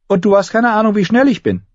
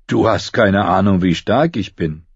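First: Put-on high, louder girlish comeback; high-pitched, defiant young girl; girl boasting back. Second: Plain-voiced boy showing off his strength; boy boasting. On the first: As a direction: top his brag in a high girl's voice. Arya's retort in girl's voice. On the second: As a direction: brag evenly, without raising the pitch. Bull's boast, set against Arya's.

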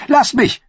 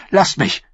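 First: High, loud outburst; queen screaming at her knight to leave her; shout. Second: Said in the usual way. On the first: Acted. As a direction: scream it at him. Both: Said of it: "sagte sie".

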